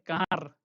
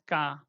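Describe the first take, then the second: First: The word ends with a clear r sound. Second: The word ends in a vowel without r. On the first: The speaker calls it wrong. "we don't say car" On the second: The speaker calls it right. "it is ka"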